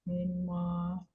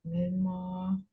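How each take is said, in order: Both takes have the same delivery.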